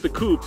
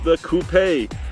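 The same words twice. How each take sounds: First: It is said the American way, one syllable. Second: It is said the British way, coupé.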